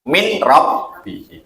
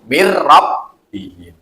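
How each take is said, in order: First: The n is pronounced clearly before the r. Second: The n merges fully into the following r. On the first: This is ordinary reading without Quranic recitation rules. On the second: This is the Quranic recitation with assimilation. "Al-Qur'an maca niku"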